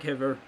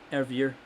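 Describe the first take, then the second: First: The name starts with an audible H sound. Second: The name starts with no H sound. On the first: The speaker calls it wrong. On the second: The speaker calls it right.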